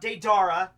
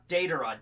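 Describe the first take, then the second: First: Deidara said day-DAR-uh; Deidara with a long stressed "dar"; wrong pronunciation. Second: Deidara said DAY-duh-ruh; Deidara with a light, quick ending after DAY; correct pronunciation. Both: Shown as a demonstration. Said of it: "Not Deidara".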